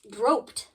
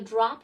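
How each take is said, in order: First: The vowel is a long 'oh' sound. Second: The vowel is a short 'ah' sound. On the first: The speaker calls it wrong. "the E would influence the short sound ah that O makes" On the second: The speaker calls it right. "the short sound ah that O makes"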